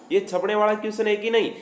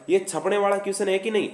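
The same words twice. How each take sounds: The two takes are said the same way.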